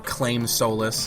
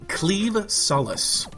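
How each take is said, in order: First: The first word sounds like claim. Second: The first word sounds like cleave. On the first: The speaker calls it wrong. "That's what I've heard a lot of people calling it" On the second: The speaker calls it right. "actually pronounced cleave"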